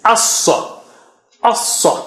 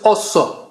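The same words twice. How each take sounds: First: Assa with an open a and a heavy s; teacher modelling the correct assa. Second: Assa with the a rounded to o; teacher showing the mistake in assa; wrong vowel. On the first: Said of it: "pronounced as it is". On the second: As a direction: show the rounded assa as the error. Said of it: "Don't say". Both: Shown as a demonstration.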